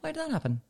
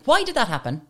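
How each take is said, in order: First: It is said in a soft, gentle tone. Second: It is said in a short, curt tone.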